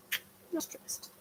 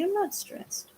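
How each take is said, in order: First: Soft, slow whisper; whispered repeat to the dog. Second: High and soft, telling the dog she's not stressed; high pet voice. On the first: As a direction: breathe it out to herself. Repeats it under breath. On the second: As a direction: coo it to reassure the puppy. Reassuring the dog. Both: Real, not acted.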